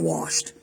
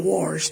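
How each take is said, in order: First: It is said without an r sound. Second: It is said with an r sound, warshed. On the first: This is the usual way to say it. "instead of washed" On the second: This is how country folks say it. "I say washed"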